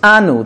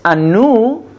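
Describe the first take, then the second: First: The stress is on the first syllable. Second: The stress is on the last syllable. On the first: It means us. "If it's pronounced mil-el, the beginning of the word, it has the stress" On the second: It means they will weep. "it's milra, the stress is on the end of the word"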